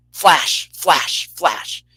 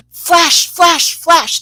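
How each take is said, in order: First: Slow, separate flashes, dropping in pitch; deadly serious flashes. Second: High, loud mock command of 'flash'; half kidding. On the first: Retold or imitated. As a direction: spell out each flash slowly, in earnest. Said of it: "no joke, you guys, it went". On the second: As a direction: call out each flash playfully, high and loud. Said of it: "half kidding, she goes".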